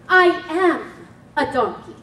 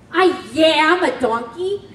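First: No 'y' sound comes before 'am'. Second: A 'y' sound comes before 'am'. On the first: The speaker calls it right. "The proper way to say that is" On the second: The speaker calls it wrong. "What did you say?"

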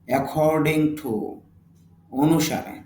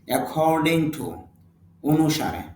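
The two takes are said the same way.

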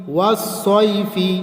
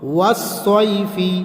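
Both takes have the same delivery.

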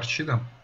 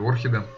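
First: The middle consonant sounds like 'ch'. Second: The middle consonant sounds like 'kh'. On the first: The speaker calls it wrong. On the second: The speaker calls it right.

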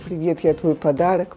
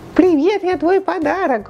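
First: It is said in an ordinary natural voice. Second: It is said in an imitated celebrity-style voice. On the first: The speaker calls it wrong. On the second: The speaker calls it right.

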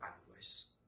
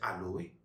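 First: The word ends with an audible s sound. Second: The word ends on the vowel, without s. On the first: "tout comme aloès" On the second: "On peut prononcer aloé"

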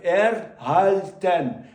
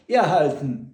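First: The word is pronounced exactly as spelled. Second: The word is pronounced the usual everyday way. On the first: This is a spelling pronunciation people rarely use. The speaker calls it wrong. "написано erhalten. Ви ніде не вчуєте таке слово, як erhalten" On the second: This is what native speakers actually say. The speaker calls it right. "Але ви все вчуєте erhalten"

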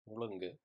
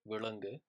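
First: The word begins with an m sound. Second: The word begins with a v sound. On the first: "They'll actually pronounce the V as mu" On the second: "the verb for swallow is vulungu"

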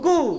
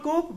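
First: The word ends with no 'p' sound. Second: The word ends with a 'p' sound. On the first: The speaker calls it right. "but it is?" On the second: The speaker calls it wrong. "It is not coop"

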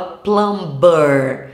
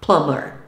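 First: The B is pronounced. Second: The B is silent. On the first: The speaker calls it wrong. "Todo mundo fala plumber, achando que tá arrasando" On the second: The speaker calls it right. "esse B também é mudo, então o correto é falar plumber"

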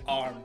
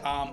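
First: The R sound is clearly pronounced. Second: The R sound is left silent. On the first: "American, they say arm with R" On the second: "British, they would say arm"

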